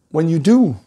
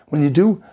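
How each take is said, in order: Both takes have the same delivery.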